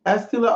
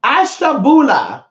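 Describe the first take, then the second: First: "Astula" in three syllables, missing the "bu"; mispronounced place name. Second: "Ashtabula" drawn out slowly, high, all four syllables; corrected place name. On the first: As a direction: tentatively sound out "Astula", voice raised. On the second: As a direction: land "Ashtabula" in full, with "sh" and "BU". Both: Real, not acted. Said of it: "Let's see what it's called".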